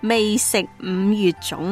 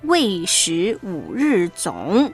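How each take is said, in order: First: It is read with Cantonese pronunciation. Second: It is read with Mandarin pronunciation. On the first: The speaker calls it right. "我还是用广东话说一次吧" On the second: The speaker calls it wrong. "用普通话念呢有点怪哈"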